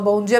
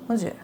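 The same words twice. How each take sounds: First: It is said with normal lively energy. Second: It is said flatly, with no energy.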